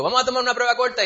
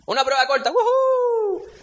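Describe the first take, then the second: First: Brisk teacher announcement. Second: Much higher, louder squeal of fake joy; hammed-up student whoop, high and loud; mock celebrating student. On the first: Retold or imitated. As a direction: rattle it off like a teacher springing a quiz. Teacher announcing quiz again. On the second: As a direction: cheer like a student thrilled about a quiz. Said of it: "nadie sale celebrando".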